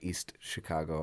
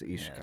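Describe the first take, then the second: First: The stress falls on Chicago. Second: The stress falls on East. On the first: The speaker calls it wrong. "they call it East Chicago" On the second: The speaker calls it right. "no, it's East Chicago"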